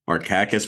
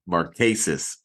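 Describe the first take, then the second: First: The name ends with a hard k-like sound. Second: The name ends with a softer s-like sound.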